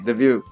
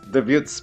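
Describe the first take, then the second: First: The final consonant is left silent. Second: The final consonant is pronounced aloud. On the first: The speaker calls it right. "but it's" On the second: The speaker calls it wrong. "we want to pronounce it like"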